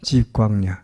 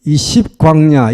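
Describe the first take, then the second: First: 집 said with an initial j sound; corrected pronunciation. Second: 십 said with an initial s sound; written pronunciation. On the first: Preacher correcting the wilderness name, 집 with j. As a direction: say 집 starting with j instead of s, lower and softer. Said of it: "이것이 이 집 광야입니다". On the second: Preacher reading out the wilderness name as written, 십 with s. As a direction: say 십 as spelt in Korean, starting with s. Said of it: "한국말로 십이라고 썼지만". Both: Shown as a demonstration.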